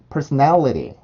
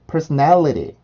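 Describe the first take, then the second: First: The t is a quick, soft flap sound. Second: The t is a quick, soft flap sound.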